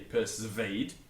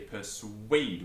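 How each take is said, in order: First: The consonant after the s is not a w sound. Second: The consonant after the s is a w sound. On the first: The speaker calls it wrong. "we don't say persuade" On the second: The speaker calls it right. "we say persuade with a W"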